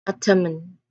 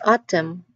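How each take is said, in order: First: An n sound is heard at the end. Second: No n sound is heard at the end. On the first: The speaker calls it wrong. "We do not say it- the word as autumn" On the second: The speaker calls it right. "It's just autumn"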